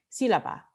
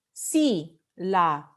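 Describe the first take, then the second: First: Said in the usual way. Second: "sílaba" slowly split into SÍ, la, ba; syllable by syllable. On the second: Shown as a demonstration. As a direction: sound out "sílaba" slowly, stressing the first beat SÍ. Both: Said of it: "antepenúltima sílaba".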